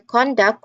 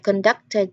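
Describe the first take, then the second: First: The stress is on the first syllable. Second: The stress is on the second syllable. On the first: Behavior. "conduct as a noun, ... it stresses the first syllable" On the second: Leading. "conducted as a verb, ... So it stresses the second syllable"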